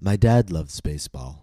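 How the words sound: The stress falls on the word dad. It is this person, not another relative. "my focus word becomes dad. I'm showing contrast"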